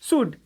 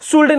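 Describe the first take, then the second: First: The L sound is silent. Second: The L sound is clearly pronounced. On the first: The speaker calls it right. "ये शुड है" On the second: The speaker calls it wrong. "शुल्ड नहीं"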